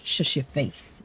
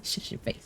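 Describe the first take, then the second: First: Said in the usual way. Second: Whispered shush. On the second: Pretend. Streamer teasingly shushing chat about her ADHD, whispered. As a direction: repeat it in a breathless whisper, much softer.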